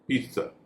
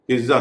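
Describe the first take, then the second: First: The middle consonant is a ts sound. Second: The middle consonant is a z sound. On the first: The speaker calls it right. "उनमें उसका उच्चारण हो रहा है स" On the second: The speaker calls it wrong. "पिज्जा नहीं"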